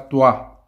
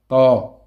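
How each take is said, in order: First: The lips round, adding a w-like glide. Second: The lips stay still, with no glide. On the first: The speaker calls it wrong. "les lèvres ne font pas toi, toi, non" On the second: The speaker calls it right. "Les lèvres ne bougent pas"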